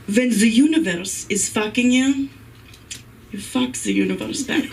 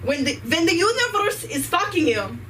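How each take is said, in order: First: Emphatic. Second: Higher, hammed-up Ukrainian accent; mock Ukrainian guru voice, pitched up. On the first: Shown as a demonstration. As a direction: announce it like a big truth. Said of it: "very important piece of information". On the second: Comic teaching the crowd the mantra in a hammed-up Ukrainian accent. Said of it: "in a Ukrainian accent".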